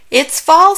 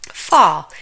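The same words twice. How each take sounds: First: Higher and louder, fall rising; bright rising call of It's fall; excited announcement. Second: Said in the usual way. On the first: Acted. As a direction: sing out the season fall.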